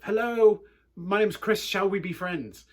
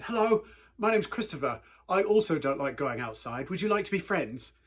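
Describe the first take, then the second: First: Higher, much louder eager greeting; louder repeat. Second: Greeting a big kid hopefully, lightly voiced child; little British kid. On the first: Retold or imitated. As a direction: call it out again so the big kid hears. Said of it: "and then just repeated myself". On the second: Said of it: "in my weird little British accent".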